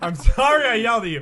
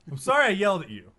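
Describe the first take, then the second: First: It is yelled loudly. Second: It is said at normal volume.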